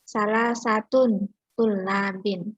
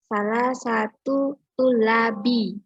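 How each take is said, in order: First: Both words end in an n sound. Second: Neither word ends in an n sound. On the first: "dibaca salah satun tulabin" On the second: "bukan tulabin"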